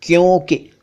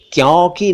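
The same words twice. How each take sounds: First: "क्योंकि" with closed o; correct o vowel. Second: "क्योंकि" mispronounced "kyaunki", open vowel; wrong au vowel. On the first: Teacher corrects to क्योंकि, o sound. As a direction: say "क्योंकि" as "kyohn-ki". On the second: Teacher rejects mistaken क्योंकि, open au. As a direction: say "क्योंकि" as "kyaw-ki". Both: Shown as a demonstration. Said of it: "क्योंकि नहीं".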